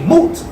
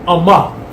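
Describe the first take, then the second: First: It begins with M and has no vowel before it. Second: It begins with a vowel before the M. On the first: The speaker calls it wrong. "which many say" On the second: The speaker calls it right. "There's an A before the M and an A behind the M"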